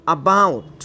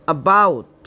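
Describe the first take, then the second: No difference in how they are said.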